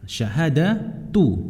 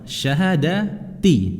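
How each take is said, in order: First: The word ends with an 'oo' vowel. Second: The word ends with an 'ee' vowel. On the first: It is the predicate of a hidden subject. "yang pertama dibaca dengan ad-dhammah" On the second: It stands as a substitute for the word five. "boleh dibaca dengan kasroh"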